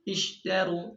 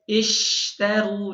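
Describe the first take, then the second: First: The sh sound is said very weakly. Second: The sh sound is pressed out strongly. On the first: The speaker calls it wrong. "dengan lemah sekali" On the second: The speaker calls it right. "Seharusnya dibaca ishtaru"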